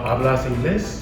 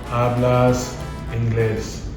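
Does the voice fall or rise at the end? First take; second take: rise; fall. First: The voice rises at the end as a question. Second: The voice stays flat or falls at the end. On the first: It is asked as a question. The speaker calls it right. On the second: It is stated as a statement. The speaker calls it wrong.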